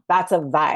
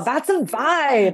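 First: The tone sounds uneasy and disapproving. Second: The tone sounds pleased and approving. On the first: The thing is bad. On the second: The thing is good.

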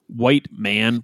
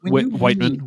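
First: It sounds like two words, 'white man'. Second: It sounds like one word, 'Whitman'. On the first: The speaker calls it wrong. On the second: The speaker calls it right. "more like Whitman"

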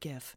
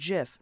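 First: The word begins with a hard g sound. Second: The word begins with a j sound. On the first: "not GIF" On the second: "a J sound, like in GIF"

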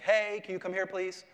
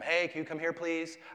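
First: It is said louder, with a raised voice. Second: It is said at a normal, quiet volume. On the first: "I can raise my voice without yelling, right? Like" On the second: "I can call one of them"

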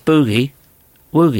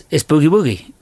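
First: It is said as two words with a pause. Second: It is said as one word without a pause. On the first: It is two separate words. The speaker calls it wrong. "Nobody says it like that" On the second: It is a single word. The speaker calls it right. "It's one word"

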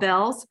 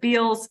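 First: The vowel sounds like the one in 'bell'. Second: The vowel sounds like the one in 'feel'. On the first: The speaker calls it right. "but it's called Bell's" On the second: The speaker calls it wrong. "Sometimes people mispronounce it as Beals and pronounce it phonetically"

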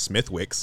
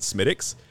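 First: The name is said with an American pronunciation. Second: The name is said with a Dublin pronunciation. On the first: This is how Americans say the name. "if you're an American, pronounced Smithwick's" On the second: This is how locals in Dublin say the name. "in Dublin they pronounce it Smithwick's"

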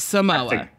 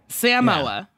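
First: The word is said casually, without careful enunciation. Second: The word is said with careful, exaggerated enunciation. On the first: This is how non-Samoans usually say it. The speaker calls it wrong. "And not Samoa" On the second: This is how a Samoan says it. The speaker calls it right. "he's really over-enunciating"

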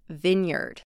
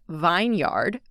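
First: The first syllable sounds short, like 'vin'. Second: The first syllable sounds like the word 'vine'. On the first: The speaker calls it right. "but it is vineyard" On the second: The speaker calls it wrong. "It looks like it should be pronounced vineyard"

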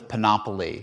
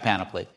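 First: The word is said to rhyme with monopoly. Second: The word is said not rhyming with monopoly. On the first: The speaker calls it wrong. "as if it rhymes with Monopoly" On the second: The speaker calls it right. "but it is in fact Panoply"

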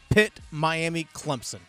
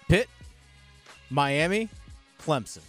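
First: The list is said at normal speed. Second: The list is said slowly and deliberately.

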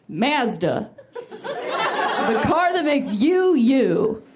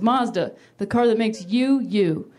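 First: It is said in a Canadian accent. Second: It is said in an American accent.

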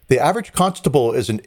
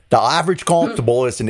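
First: It is said in the speaker's plain accent. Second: It is said in a put-on English accent.

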